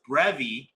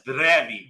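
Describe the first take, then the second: First: The R is a hard English R. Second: The R is a rolled R. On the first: The speaker calls it wrong. "Something I would have said before" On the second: The speaker calls it right. "I know now it's"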